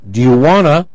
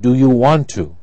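First: 'Want to' is reduced to 'wanna'. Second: 'Want to' is said in full. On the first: "when you heard" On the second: "You will write"

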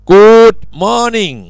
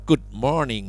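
First: The vowel in good is drawn out and exaggerated. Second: The vowel in good is a plain short u. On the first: The speaker calls it wrong. "โอ้โหไม่ต้องขนาดนั้นครับ" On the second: The speaker calls it right. "เป็นเสียงสระอุนะครับอ่านว่า"

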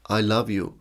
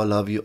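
First: It is said sincerely, with deep feeling. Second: It is said casually, without real feeling.

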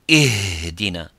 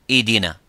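First: The h is pushed out with strong force. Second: The h sound is so weak it disappears. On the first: "if we try to give it more strength" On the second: "you make it weaker, it becomes idina"

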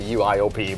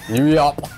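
First: It is spelled out as four separate letters. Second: It is said as one two-syllable word. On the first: "I would just say U-I-O-P" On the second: "I like how you pronounce it as Yui-op"

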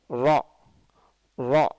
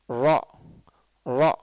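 No difference in how they are said.

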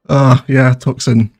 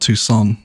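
First: The name is said with a 'ks' sound. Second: The name is said with no 'k' sound. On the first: The speaker calls it wrong. "I got called out for that one in the comments" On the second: The speaker calls it right. "which I believe is the correct pronunciation"

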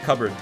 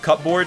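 First: The p is dropped, sounding like cubbard. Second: Both parts sound clearly, as cup and board. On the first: The speaker calls it right. "C-U-B-B-A-R-D is probably a better way of spelling it" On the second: The speaker calls it wrong. "You don't pronounce this as cupboard?"

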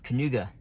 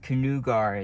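First: The word ends with a plain vowel. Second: The word ends with an added r sound. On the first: The speaker calls it right. "It's Kanuga. Kanuga is how you pronounce that road" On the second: The speaker calls it wrong. "Kanugar is wrong"

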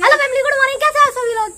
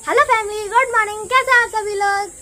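First: The greeting is shouted loudly. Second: The greeting is said softly and sweetly.

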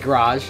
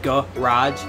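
First: The first vowel is dropped, starting with g-r. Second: The first vowel is fully said, as g-a-r. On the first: This is how people from Michigan say it. "You say it like G-R instead of G-A-R" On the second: This is how people elsewhere say it. "apparently people say garage, like"

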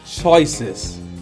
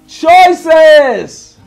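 First: It is said at normal volume. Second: It is said very loudly.

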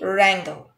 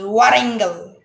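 First: No W sound is heard at the start. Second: A W sound is heard at the start. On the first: The speaker calls it right. "It will be wrangle" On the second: The speaker calls it wrong. "Wrangle is incorrect"

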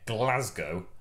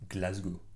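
First: It is said with an English accent. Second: It is said with a French accent.

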